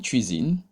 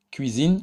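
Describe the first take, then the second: First: "cuisine" opened with a tch sound. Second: "cuisine" opened with a plain K; cuisine with hard K. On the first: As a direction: pronounce "cuisine" as tchuizin, K softened to tch. (« cuisine » avec le son tch au début) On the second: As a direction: pronounce "cuisine" as kuizin, hard K first. (« cuisine » avec un K dur au début) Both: Shown as a demonstration. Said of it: "qui peut être également prononcé".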